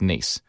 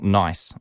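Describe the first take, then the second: First: The vowel sounds like 'ee', as in niece. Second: The vowel sounds like 'eye', as in nice. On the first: The speaker calls it right. "So it's actually correctly pronounced Nice" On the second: The speaker calls it wrong. "not nice"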